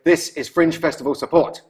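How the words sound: It is said in an aggressive tone.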